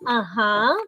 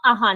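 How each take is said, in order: First: It is said through the nose. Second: It is said without nasal sound.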